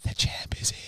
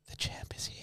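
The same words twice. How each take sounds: First: Whispered again, creepy; retold creepy whisper. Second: Creepy whispered line; retold creepy whisper. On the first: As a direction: lean in and breathe it. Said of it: "whispered in his ear". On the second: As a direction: breathe it into his ear. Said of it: "he just whispered".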